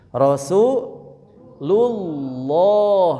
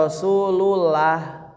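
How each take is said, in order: First: "Rasulullah" drawn out slowly with a thick lam; "Rasulullah" slow, lam full and thick; heavy lam. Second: "Rasulullah" with a light, thin lam; "Rasulullah" with no thick lam. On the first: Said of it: "tidak dibaca Rasulullah". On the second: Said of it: "tidak dibaca". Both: Shown as a demonstration.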